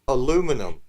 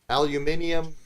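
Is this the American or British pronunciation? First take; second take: American; British. First: It is said in the American way. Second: It is said in the British way. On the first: "We're just gonna leave the letter out for you dumb Americans" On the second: "If you want to say it properly"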